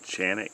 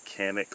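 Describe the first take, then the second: First: The name begins with a CH sound. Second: The name begins with a hard K sound. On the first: It is another common way of saying it. "or I should say Chanic" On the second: It is said the way it is spelled. "I'm going to say it like it's spelled"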